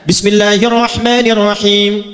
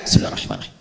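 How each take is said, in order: First: It is recited loudly and clearly. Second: It is recited quietly, almost silently.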